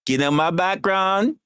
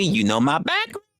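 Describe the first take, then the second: First: Slow, high, lilting "You know my background" with a West Indian hint; hint of West Indian accent. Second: Said in the usual way. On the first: Shown as a demonstration. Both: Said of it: "Not gonna pull out the accents".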